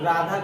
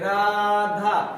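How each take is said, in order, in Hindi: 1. नाम सादे ढंग से बोला गया है, बिना खींचे। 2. अंतिम स्वर लंबा खिंचा हुआ है, पुकारने जैसा। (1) "तो राधा कहेंगे तो क्या मतलब हुआ कि नजदीक में है" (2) "यानी यही जो खिंचाव हो रहा है यही है प्लुत स्वर"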